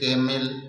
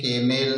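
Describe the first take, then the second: First: The final syllable has an 'i' vowel before 'l'. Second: The final syllable has a full 'e' vowel before 'l'. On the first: "केमिल नहीं पढ़ेंगे" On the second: "केमेल नहीं पढ़ेंगे"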